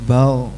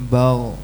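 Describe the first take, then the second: Both takes have the same delivery.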